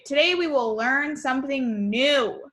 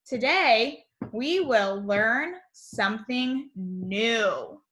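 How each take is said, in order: First: Excited read. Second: Put-on slow, careful read-aloud for little kids; reading the message. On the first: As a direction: read it with an exclamation point. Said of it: "and that is when we are excited". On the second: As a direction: read it out slowly, word by word. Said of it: "Our morning message". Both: Shown as a demonstration.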